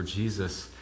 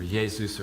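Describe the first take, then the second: First: Jesus said as JEE-zus; Jesus with a hard English J. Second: Jesus said as HAY-zoos; Jesus pronounced Hey-zoos; Spanish-style Jesus. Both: Acted. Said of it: "Yeshua or".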